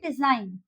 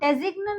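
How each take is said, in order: First: The g is silent inside the word. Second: The g is pronounced inside the word. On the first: The speaker calls it right. "यहाँ पे हम बोलेंगे डिजाइन" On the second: The speaker calls it wrong. "यहाँ पे हम डेजिग्न नहीं बोलेंगे"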